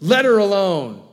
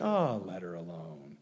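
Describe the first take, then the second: First: Sharp, loud, high rebuke; stern command. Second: Low and soft, gently letting her be; a tender hush of a rebuke; soft, gentle rebuke. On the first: Jesus loudly commanding Judas to leave her alone. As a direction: bark it out as a firm order. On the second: Jesus quietly telling Judas to leave Mary be, softly. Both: Pretend. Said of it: "I don't know what the tone of voice was".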